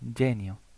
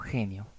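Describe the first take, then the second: First: It starts with a soft 'j' sound. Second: It starts with a harsh, throaty sound. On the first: The speaker calls it right. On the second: The speaker calls it wrong.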